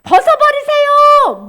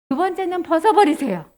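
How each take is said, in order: First: High, loud, drawn-out exhortation; urging command. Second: Said in the usual way. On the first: Acted. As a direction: call it out slowly and forcefully. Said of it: "성령님이".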